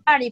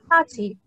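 First: It is said in an American accent. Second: It is said in a British accent. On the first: "cuando dicen party, fiesta, en Estados Unidos" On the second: "en Inglaterra lo pronuncian party"

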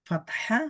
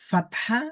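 The two takes are said the same way.

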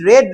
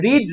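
First: The vowel is short, like 'red'. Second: The vowel is long, like 'reed'. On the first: It is the past tense form. "উচ্চারণটা হয় রেড" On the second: It is the present tense form. "রিড V1"

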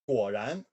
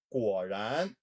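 First: The word is spoken at medium speed. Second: The word is spoken slowly.

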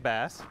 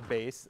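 First: The vowel rhymes with mass, like the fish. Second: The vowel rhymes with base, like the instrument. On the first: It names the fish. The speaker calls it wrong. "it looks like a fish to me" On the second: It names the instrument. The speaker calls it right. "Or bass"

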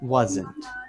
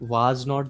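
First: It is said as one contracted word. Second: It is said as two full separate words. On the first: "was not the ban gaya wasn't" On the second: "was not the ban gaya wasn't"

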